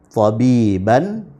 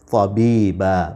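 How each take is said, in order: First: The word ends with an n sound. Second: The word ends with a long a vowel. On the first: The reading continues without stopping. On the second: The reader stops on this word.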